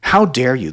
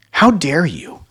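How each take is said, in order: First: A second, clipped-back mock huff; louder imitation of offended outrage; mock narcissist. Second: High, loud imitation of indignation; hammed-up outraged narcissist; louder mock huff of offended pride. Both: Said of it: "something a lot of narcissists like to say".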